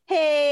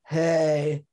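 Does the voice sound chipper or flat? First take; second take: chipper; flat. First: It is said in a bright, cheerful voice. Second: It is said in a flat, tired voice.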